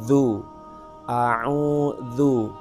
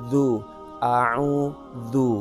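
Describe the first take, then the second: Both takes have the same delivery.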